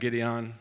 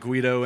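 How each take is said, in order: First: It is pronounced like 'Gideon'. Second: It is pronounced like 'Guido'. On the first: "very commonly mispronounced" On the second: "very commonly mispronounced"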